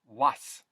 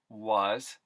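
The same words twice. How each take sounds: First: The word ends with an s sound. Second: The word ends with a z sound.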